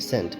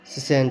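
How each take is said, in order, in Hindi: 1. यह शब्द एक अक्षर में बोला जाता है। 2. यह शब्द दो अक्षरों में बोला जाता है। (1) "सी साइलेंट रहेगा" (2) "सीसेंट नहीं पढ़ेंगे"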